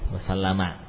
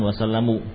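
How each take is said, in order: First: The word ends with an 'a' vowel. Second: The word ends with a 'u' vowel. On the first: The speaker calls it right. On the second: The speaker calls it wrong. "yang betul bukan wasallamu"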